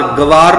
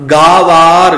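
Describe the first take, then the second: First: ਗਵਾਰ with quick ga, ga-vaar; short first vowel. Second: ਗਾਵਾਰ loud, held, gaa-vaar; long first vowel. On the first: Teacher warns against this reading, ਗਵਾਰ begun short. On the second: Teacher models the right reading, ਗਾਵਾਰ with long aa. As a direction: stretch the opening aa of ਗਾਵਾਰ. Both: Shown as a demonstration. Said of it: "ਗਵਾਰ ਨਹੀਂ ਬੋਲਣਾ".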